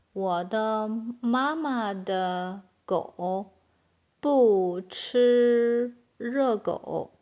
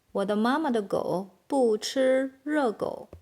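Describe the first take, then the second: First: Very slow, drawn-out syllables; word by word. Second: Said in the usual way. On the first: Shown as a demonstration. Teacher building a long Chinese sentence for learners, slowly, word by word. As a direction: stretch each word out for learners. Slow model, then natural take.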